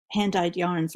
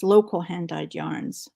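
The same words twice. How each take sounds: First: Said in the usual way. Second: Slow, with "local" set apart as a pet phrase; stress on local. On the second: Shown as a demonstration. Naming her favourite yarn to viewers, leaning slowly on "local". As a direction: lean on "local hand-dyed yarns" slowly. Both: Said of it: "as I like to call them".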